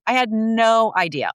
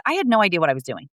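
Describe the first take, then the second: First: Had leaned on, slow and falling; slow down and hit had; stress on had. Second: Said in the usual way. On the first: Real, not acted. Guest telling host she knew nothing at first, stressing had. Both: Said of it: "repeats line for emphasis".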